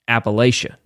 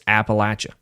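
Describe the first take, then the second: First: It is pronounced the way non-locals say it. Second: It is pronounced the way locals say it. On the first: The speaker is not from the region. "If you hear anybody from from not there, they call it" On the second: The speaker is from the region. "if you're from there like I am, it's"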